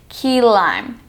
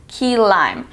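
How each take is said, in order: The two takes are said the same way.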